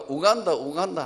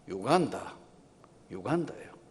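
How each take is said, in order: First: The name begins with a plain 'oo' sound. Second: The name begins with a 'yoo' sound. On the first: Foreigners would not understand it. The speaker calls it wrong. "우간다 우간다 하면 하나도 외국인은 못 알아듣는 것 같아요" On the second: This is how the locals say it. The speaker calls it right. "우간다라 안 그러고 유간다라 그래요"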